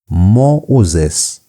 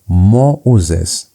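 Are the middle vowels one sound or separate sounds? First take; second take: separate sounds; separate sounds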